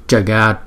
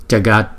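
Both takes have the same delivery.

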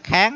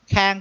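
First: The syllable is said on a rising tone. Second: The syllable is said on a level tone. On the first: The speaker calls it right. "Các vị thêm dấu sắc lên đi nha... kháng hay đúng không?" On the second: The speaker calls it wrong. "Khang cũng được"

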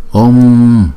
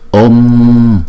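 Both takes have the same delivery.

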